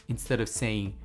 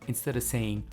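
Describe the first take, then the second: Both takes have the same delivery.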